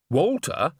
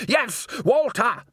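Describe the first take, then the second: First: Puzzled, higher-pitched query; doubtful. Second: High, slow, exasperated confirmation; emphatic insistence. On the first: One of the men doubting the accusation, doubtful. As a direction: question the name in disbelief. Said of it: "said one of the men doubtfully". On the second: Salzella overruling the doubting man, emphatic. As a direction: insist on it, each word drawn out high. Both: A narrator's reading.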